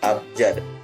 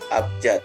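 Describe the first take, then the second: First: The word ends with a d sound. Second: The word ends with a t sound. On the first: This is the standard form. The speaker calls it right. "Kata baku dari kata abjad adalah abjad, memakai huruf D" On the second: This is the everyday nonstandard form. The speaker calls it wrong. "kata tidak bakunya adalah abjad, memakai huruf T"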